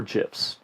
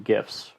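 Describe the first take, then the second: First: "gifs" with a soft g, like jifs. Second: "gifs" with a hard g as in gift. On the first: Host offering the other pronunciation, "gifs" said as jifs. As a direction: say "gifs" starting with a j sound. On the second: Host naming animated image files, "gifs" with a hard g. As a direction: say "gifs" starting with a hard g sound. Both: Shown as a demonstration. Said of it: "depending on who you talk to".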